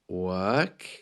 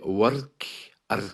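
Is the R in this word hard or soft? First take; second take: soft; hard. First: The R is soft and barely heard. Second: The R is clearly pronounced and hard. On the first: "the letter R doesn't really feature" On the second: "with a hard R"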